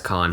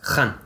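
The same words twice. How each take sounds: First: The first sound is an ordinary plain k. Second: The first sound is made deep in the throat. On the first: "I'm not going to worry too much about saying it with the epiglottis" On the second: "From the epiglottis"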